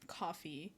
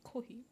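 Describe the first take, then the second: First: It is said with an English accent. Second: It is said with a Japanese accent.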